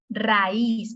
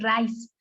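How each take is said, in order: First: The stress falls on the i. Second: The stress falls on the a. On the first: The speaker calls it right. "me está pidiendo, ponme acento" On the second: The speaker calls it wrong. "no podía decir raíz"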